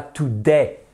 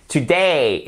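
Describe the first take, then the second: First: "today" dit tou-dè, voyelle simple; prononciation française fautive. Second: "Today" avec DAY glissé en é-i; diphtongue juste. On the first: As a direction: imite un francophone qui dit "today" tou-dè. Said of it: "et pas today". ("today" avec un è français, sans diphtongue) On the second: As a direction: fais glisser et retomber la fin de "Today". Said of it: "qui s'appelle une diphtongue". ("Today" à l'anglaise, diphtongue appuyée) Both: Shown as a demonstration.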